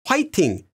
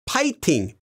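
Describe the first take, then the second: First: The word begins with an h sound. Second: The word begins with a p sound. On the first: This is a common variant, especially among older people. "commonly find it written and pronounced as 화이팅, especially from the older generation" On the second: This is the standard form. "the official spelling and pronunciation is 파이팅"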